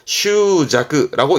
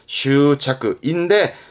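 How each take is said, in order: First: The second part starts with a j sound. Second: The second part starts with a ch sound. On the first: This is a less common reading. "슈자크라고 읽기도 합니다만" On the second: This is the usual reading. "흔히는 슈차크"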